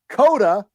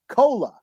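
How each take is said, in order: First: It is said with a d, Dakota dialect. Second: It is said with an l, Lakota dialect.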